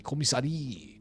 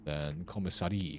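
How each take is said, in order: First: Commissary said the French way, high; a playful mock-French commissary; weird French accent. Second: Said in the usual way. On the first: French accent while naming a game room. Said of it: "I say this with a weird French accent". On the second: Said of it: "I don't know why I say this".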